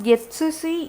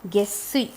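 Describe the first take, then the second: First: The middle is a full 'tsu' syllable. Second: The middle is a doubled 'ss' sound. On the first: The speaker calls it wrong. "not Getsusi" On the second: The speaker calls it right. "it's Gessi"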